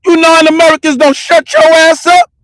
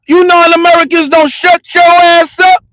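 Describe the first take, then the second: First: Raised, higher retold yell; yelling it back at them, pitched up. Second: Full shout. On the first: Retelling what he yelled at the couple, raised and high. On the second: Retold or imitated. Yelling at the non-Americans who threatened to call the cops, shouting. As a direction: let it rip at the top of your voice.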